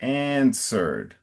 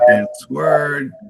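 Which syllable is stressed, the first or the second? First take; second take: first; second. First: The stress is on the first syllable. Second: The stress is on the second syllable. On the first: The speaker calls it right. "the emphasis is on the front" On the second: The speaker calls it wrong. "you said something closer to ans uh, answered"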